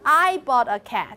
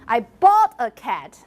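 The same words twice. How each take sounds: First: The word I is stressed. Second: The word bought is stressed. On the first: The speaker, not someone else, got it. "not you" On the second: The cat was paid for, not stolen. "not that I, I, I stole a cat"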